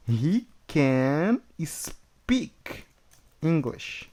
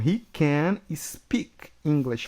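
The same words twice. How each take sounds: First: Whispered, very slow, he can speak; slow whispered model. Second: Said in the usual way. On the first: Shown as a demonstration. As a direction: breathe it out word by word. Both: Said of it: "então vai ficar, ó".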